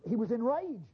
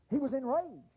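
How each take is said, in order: Both takes have the same delivery.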